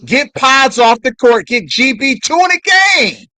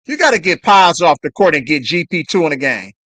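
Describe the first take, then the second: First: Higher, louder shouted demand at the coach; louder insistent repeat. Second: Said in the usual way. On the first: Real, not acted. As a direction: yell it like the coach can hear. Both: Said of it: "repeats the demand louder".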